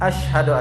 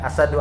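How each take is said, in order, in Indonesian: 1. Bunyinya sh yang tebal, diikuti h. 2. Bunyinya s biasa, tidak ada bunyi h. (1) "tebalkan syaknya" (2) "jangan ya asadu"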